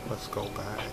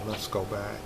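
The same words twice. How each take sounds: The two takes are said the same way.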